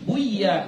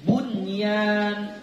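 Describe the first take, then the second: First: The n is dropped before ya. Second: The n is clearly sounded before ya. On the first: The speaker calls it wrong. "Gak boleh bui, buya, gak boleh" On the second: The speaker calls it right. "bun, bunyan"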